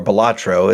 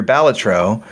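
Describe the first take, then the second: First: Balatro said as buh-LAH-tro, stress on the middle; personal mispronunciation. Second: Said in the usual way. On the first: Shown as a demonstration. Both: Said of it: "as I actually pronounce it, even though it's wrong".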